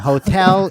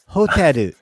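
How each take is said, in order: First: It is said with an English pronunciation. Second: It is said with a Japanese pronunciation.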